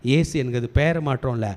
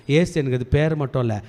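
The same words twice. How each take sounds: The two takes are said the same way.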